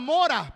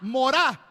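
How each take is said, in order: First: The stress is on the first syllable. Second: The stress is on the last syllable. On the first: "como la palabra mora" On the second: "pero acento en la A"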